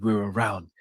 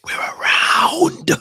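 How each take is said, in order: First: Said in the usual way. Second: Long, forceful whispered yell; whispered shout. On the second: Real, not acted. Streamer celebrating while the kids sleep, whisper-shouting. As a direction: scream it in a whisper, drawn out. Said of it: "He's doing the loud silence".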